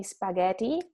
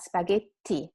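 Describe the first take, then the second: First: Spaghetti with a quick, light T; single T. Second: Spaghetti as "spa-GHET-ti" with a held T; double T. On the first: Teacher shows students the weak version, spaghetti with short T. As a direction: run through the T of spaghetti. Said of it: "can say spaghetti". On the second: Teacher corrects students, spaghetti with strong double T. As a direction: stop on the TT in spaghetti. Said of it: "make the sound longer and stronger". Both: Shown as a demonstration.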